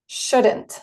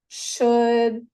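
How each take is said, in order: First: The word is said at a normal pace. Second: The word is said more slowly.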